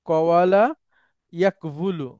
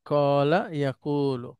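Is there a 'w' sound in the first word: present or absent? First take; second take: present; absent. First: A 'w' sound is pronounced inside each word. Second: The 'w' sound is dropped, leaving long vowels. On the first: This is the underlying original form. The speaker calls it wrong. "সেটা পড়া কঠিন, ওইভাবে পড়া যায় না।" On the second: This is the simplified form actually used. The speaker calls it right. "তখন আমরা সহজ করলাম।"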